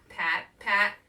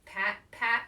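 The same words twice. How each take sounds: The two takes are said the same way.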